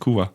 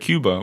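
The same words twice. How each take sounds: First: The b is soft and barely closed. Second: The b is a full, hard stop.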